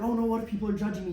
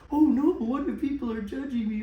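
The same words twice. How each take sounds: First: It is said in the speaker's normal voice. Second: It is said in a silly, goofy put-on voice. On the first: The thought feels serious and worrying. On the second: The thought is silly and need not be taken seriously.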